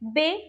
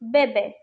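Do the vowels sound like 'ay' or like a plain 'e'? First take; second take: ay; plain e. First: The vowels have a clear 'ay' sound. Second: The vowels have a plain, unaccented e sound. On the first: The speaker calls it right. "it's be, be. With the accent, it gives sound of a" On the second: The speaker calls it wrong. "If we write it without accent, so it will sound like bebe"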